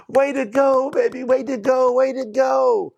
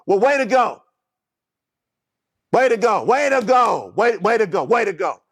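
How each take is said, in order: First: Gentle, encouraging "way to go"; encouraging praise. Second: Wrong inflection. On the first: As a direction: cheer the child on sincerely. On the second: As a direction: bark the praise so it stings. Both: Shown as a demonstration. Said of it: "You see that inflection".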